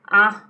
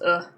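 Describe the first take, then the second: First: The vowel is said as a full vowel. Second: The vowel is reduced to a schwa.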